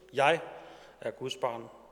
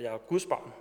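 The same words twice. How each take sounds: First: The stress falls on the word jeg. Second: The stress falls on the word Guds.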